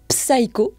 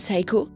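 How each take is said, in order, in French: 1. Le mot commence par le son p. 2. Le mot commence par le son s. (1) "non seulement vous êtes dans le tort" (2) "le P ne se prononce pas en début de mot devant un S"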